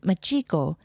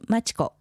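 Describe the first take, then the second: First: The name is said the way English speakers say it. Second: The name is said with its native Japanese pronunciation. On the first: It is easier for listeners to remember. The speaker calls it wrong. "it would be easier for them to remember" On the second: The name is kept true to its origin. The speaker calls it right. "I didn't want to mispronounce my name"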